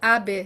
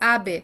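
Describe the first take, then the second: Both takes have the same delivery.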